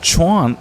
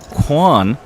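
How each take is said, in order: First: The name starts with a 'ch' sound. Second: The name starts with a 'kw' sound. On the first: The speaker calls it right. "as we do actually see pocket queens for Chuan" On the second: The speaker calls it wrong. "not Quan, as Jungleman says"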